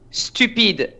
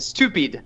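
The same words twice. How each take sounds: First: The word has a strong French accent. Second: The word has a plain English accent.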